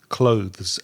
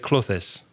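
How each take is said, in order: First: It has a voiced th before the final z. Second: It is split into two syllables. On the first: The speaker calls it right. "with your tongue between your teeth to say the word clothes" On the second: The speaker calls it wrong. "you make it two syllables"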